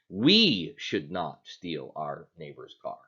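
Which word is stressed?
we. The stress falls on the word "we". Others may do it, just not us. "is it okay for someone else to do it as long as we don't do it?"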